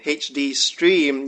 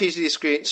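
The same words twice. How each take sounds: First: "H D Stream" said slowly with a clear t in Stream; slow, deliberate "H D Stream", each letter set apart; fixing the slip, spelling out "H D Stream" slowly; careful correction. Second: "H D screen" rushed out as screen instead of Stream; a quick, tripped-up "H D screen"; tongue slips into "screen" mid-sentence. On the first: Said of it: "uh, Scream". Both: Real, not acted.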